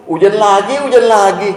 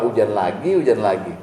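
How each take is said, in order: First: High, loud grumbling about the rain; whiny complaint. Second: Muttered complaint. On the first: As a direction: grumble it like a fed-up man. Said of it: "Kata Bapak". (keluhan merengek yang dibuat-buat, lebih tinggi dan keras) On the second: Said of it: "gimana kalau Allah yang dengar kita bilang". (gerutuan pelan yang lebih rendah) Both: Retold or imitated.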